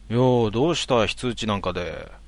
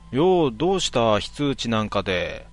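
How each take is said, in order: First: It is said in a plain, normal tone. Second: It is said in a joking, mocking tone.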